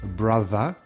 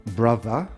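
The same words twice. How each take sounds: Both takes have the same delivery.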